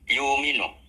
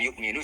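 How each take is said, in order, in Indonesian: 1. Ada vokal panjang dan tidak ada glottal stop. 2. Ada glottal stop sebelum m.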